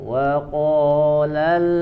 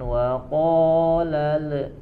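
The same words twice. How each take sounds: First: The final l is held without a bounce. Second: The final l is released with a bounce. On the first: The speaker calls it right. "diam di makhrajnya" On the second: The speaker calls it wrong. "Jangan dipantulkan huruf lamnya, jangan wa qalal"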